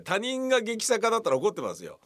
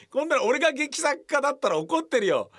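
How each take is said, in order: First: 他人が stressed, calmer and slower; slower restatement. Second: 俺が raised and emphatic; mock indignation. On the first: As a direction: stress 他人が, slow and measured. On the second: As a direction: stress 俺が, high and heated. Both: Shown as a demonstration.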